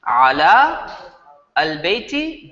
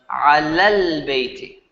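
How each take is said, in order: First: The long vowel and full article are both pronounced. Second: The vowel is shortened and merged into the article. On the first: This is how it is written. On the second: This is how it is read aloud connected.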